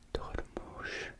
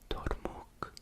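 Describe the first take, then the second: First: The word ends with an SH sound. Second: The word ends with a K sound. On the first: "a Sh sound" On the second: "a K"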